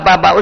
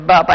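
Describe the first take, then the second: First: The word is said with excited enthusiasm. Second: The word is said flatly, without feeling. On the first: The speaker calls it right. "उच्छल से" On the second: The speaker calls it wrong. "ऐसे नहीं"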